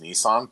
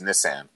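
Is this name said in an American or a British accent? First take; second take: American; British. First: It is said in an American accent. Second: It is said in a British accent. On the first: "the way that Americans say" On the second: "over in the UK it's"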